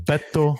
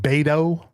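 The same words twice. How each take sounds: First: The name is pronounced with Spanish sounds. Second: The name is pronounced with English sounds. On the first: The speaker calls it right. "the way that proper Spanish speakers say it" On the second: The speaker calls it wrong. "Do not call him Beto"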